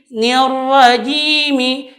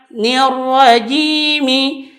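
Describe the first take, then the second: No difference in how they are said.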